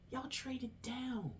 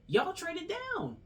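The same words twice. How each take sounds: First: It is said in a lowered, quieter voice. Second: It is said loudly and with passion.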